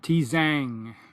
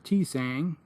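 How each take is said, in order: First: The second consonant is a buzzing z sound. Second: The second consonant is a hissing s sound. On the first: The speaker calls it right. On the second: The speaker calls it wrong.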